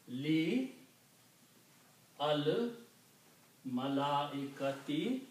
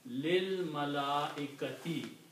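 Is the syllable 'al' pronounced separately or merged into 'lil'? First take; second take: separately; merged. First: The words are said separately, with the 'al' sound. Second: The two l sounds merge into one 'lil' sound.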